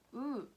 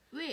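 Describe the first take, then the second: First: The vowel is one steady sound without gliding. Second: The vowel glides from one sound into another. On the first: "원래는 단모음으로" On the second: "이중 모음으로 발음하는 것을 허용"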